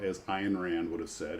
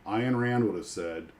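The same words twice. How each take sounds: First: Ayn said to rhyme with mine; Ayn said right. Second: Ayn said again as eye-n, like mine; Ayn said right. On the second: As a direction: land Ayn clearly as eye-n, not Ann. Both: Shown as a demonstration. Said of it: "and it's Ayn, not Ann".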